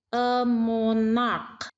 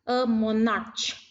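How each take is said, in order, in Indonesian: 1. Kata ini berakhiran bunyi k yang keras. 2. Kata ini berakhiran bunyi ch yang mendesis. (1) "diucapkan dengan huruf k"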